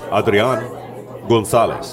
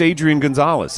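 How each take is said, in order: First: The name is said with Spanish pronunciation. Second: The name is said with English pronunciation. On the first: This is how the name is properly said. "If you want to say his name right" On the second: This is how most local fans say the name. "most people would be like"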